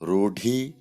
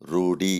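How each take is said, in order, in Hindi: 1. बीच के व्यंजन में हवा का तेज़ झोंका निकलता है। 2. बीच के व्यंजन में हवा का कोई झोंका नहीं निकलता। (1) "ಮಹಾಪ್ರಾಣಾಕ್ಷರಗಳಿಂದ ಕೂಡಿರುವ ಪದಗಳು" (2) "ಅಲ್ಪ ಪ್ರಾಣದ ರೂಪವನ್ನು ಪಡೆಯುತ್ತವೆ"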